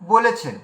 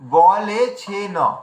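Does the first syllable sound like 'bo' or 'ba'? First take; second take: bo; ba. First: The first vowel is 'o', ending in plain 'n'. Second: The first vowel is 'a', with every syllable separate. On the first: The speaker calls it wrong. "আমরা বাঙালিরা বলি" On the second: The speaker calls it right. "তার মানে কি বলে ছে ন, উচ্চারণটা এলো"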